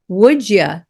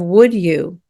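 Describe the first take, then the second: First: The words are blended, ending in a reduced vowel. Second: The words are said separately with a full vowel.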